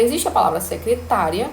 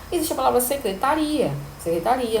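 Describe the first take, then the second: First: Secretária said with the stress on the third syllable, TÁ; careful stress on TÁ in secretária. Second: Secretaria said with the stress on the last-but-one syllable, RI; careful stress on RI in secretaria. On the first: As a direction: stress TÁ in secretária, the job title. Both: Shown as a demonstration. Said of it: "têm uma grafia idêntica, mas têm uma fonética diferente".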